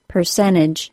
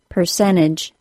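First: The T after the N is left out. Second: The same.

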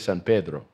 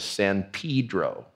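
First: The name is said with a Spanish pronunciation. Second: The name is said with an English pronunciation. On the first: This is how locals say the name. The speaker calls it right. "We say San Pedro. We're taught from a young age, even the gringos, to speak Spanish properly" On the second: This is how outsiders say the name. The speaker calls it wrong. "we would never call the city where the docks are in Los Angeles San Pedro"

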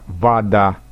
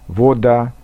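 First: The first vowel sounds like an a. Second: The first vowel is a clear, distinct o. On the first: This is the Moscow-region way of speaking. "акают" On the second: This is the Upper Volga way of speaking. "говорят «о» более отчетливо"

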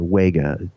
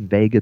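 First: The word begins with a W sound. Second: The word begins with a V sound. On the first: This follows how the name is spelled. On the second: This is how most people say the name. "Most people pronounce it Vega that I know"

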